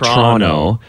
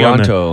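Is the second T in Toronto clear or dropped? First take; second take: dropped; clear. First: The second T is dropped and not pronounced. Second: The second T is clearly and strongly pronounced. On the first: The speaker calls it right. "you basically don't pronounce the second T at all" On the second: The speaker calls it wrong. "On the second T got a little too much emphasis"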